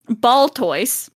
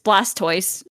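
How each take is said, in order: First: The name begins with 'Bal' and has no s. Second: The name begins with 'Blas' and includes the s. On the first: The speaker calls it wrong. "my bad pronunciation" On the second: The speaker calls it right. "It's it's Blastoise"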